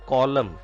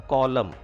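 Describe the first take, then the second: The two takes are said the same way.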